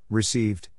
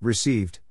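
The two takes are said the same way.

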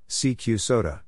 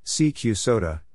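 No difference in how they are said.

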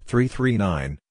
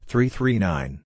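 Both takes have the same delivery.

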